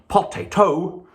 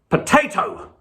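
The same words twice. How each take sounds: First: The stress is not on the middle syllable. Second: The stress is on the middle syllable. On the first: The speaker calls it wrong. "you would hear that that was wrong" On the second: The speaker calls it right. "you can hear that the stress is on the middle syllable there"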